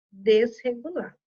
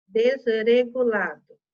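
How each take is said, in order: First: "desregulado" with a guttural H-like R after the S; "desregulado", its R said hard in the throat; strong R. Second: "desregulado" misread as de-ze-regulado, R tapped; slow, louder wrong "desregulado" with a flapped R; wrong weak R. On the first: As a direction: read "desregulado" correctly as des-hegulado. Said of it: "Som forte". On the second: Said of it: "Eu nunca poderia ler". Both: Shown as a demonstration.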